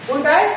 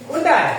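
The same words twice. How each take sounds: The two takes are said the same way.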